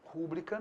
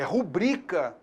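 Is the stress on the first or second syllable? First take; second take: first; second. First: The stress is on the first syllable. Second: The stress is on the second syllable. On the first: The speaker calls it wrong. "Rúbrica não" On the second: The speaker calls it right. "É rubrica"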